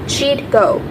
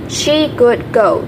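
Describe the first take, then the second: First: Would is contracted onto she. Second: Would is said as a full word.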